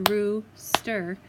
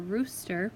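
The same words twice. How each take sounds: First: "rooster" split into two clapped beats, roos-ter, a bit louder; clapped syllables. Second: Said in the usual way. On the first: Shown as a demonstration. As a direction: clap out "rooster" beat by beat. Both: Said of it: "when I clap it out".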